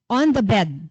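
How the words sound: The phrase is said smoothly as one chunk. The speaker calls it right. "chunks of words na dapat magkakasama"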